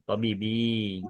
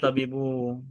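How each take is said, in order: First: The word ends with an 'ee' vowel. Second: The word ends with an 'oo' vowel. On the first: The speaker calls it right. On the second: The speaker calls it wrong. "nggak boleh Tobibu"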